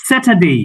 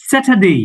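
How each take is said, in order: The two takes are said the same way.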